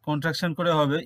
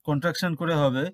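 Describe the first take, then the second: No difference in how they are said.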